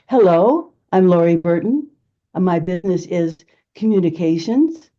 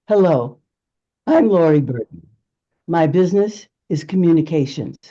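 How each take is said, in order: First: The voice rises after the name like a question. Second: The voice falls after the name like a statement.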